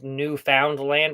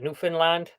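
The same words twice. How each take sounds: First: The name is pronounced just as it is written. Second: The name is pronounced the way local people say it. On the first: "it's spelled Newfoundland" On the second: "they pronounce it Newfoundland"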